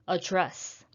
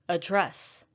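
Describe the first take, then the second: The two takes are said the same way.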